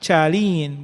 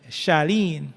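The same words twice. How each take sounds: First: It begins with a ch sound. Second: It begins with a sh sound. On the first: The speaker calls it wrong. "it is not pronounced Cha- Charlene" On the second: The speaker calls it right. "but Charlene"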